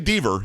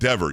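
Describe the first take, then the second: First: The first vowel is long, as in bead. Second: The first vowel is short, as in bed. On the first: The speaker calls it wrong. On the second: The speaker calls it right.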